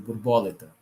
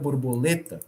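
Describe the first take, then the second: First: The stress is on the third-to-last syllable. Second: The stress is on the second-to-last syllable. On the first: "Se ela for proparoxítona" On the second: "Se ela for paroxítona"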